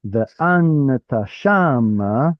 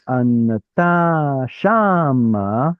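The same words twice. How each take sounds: First: Anata shama with the beat moved back to long AN, then SHA; stress scooched back. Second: Anata shama with long stressed TA right against long stressed SHA; adjacent stressed syllables. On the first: Teacher showing students the fix, anata shama stressed on AN and SHA. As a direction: slowly stress ANata SHAma, leaving TA unstressed between. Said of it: "it scooches it over". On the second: Teacher showing students the clash Hebrew avoids, anata shama stressed on TA and SHA. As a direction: slowly stretch the clashing beats, anaTAA SHAAma. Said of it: "So rather than having".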